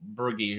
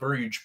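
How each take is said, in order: First: The name is said the way locals say it. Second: The name is said the familiar English way. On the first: This is how it is said in the place itself. The speaker calls it right. "my understanding is actually Brugge" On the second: This is the habitual way people used to say it. The speaker calls it wrong. "we were in the habit of calling them Bruges"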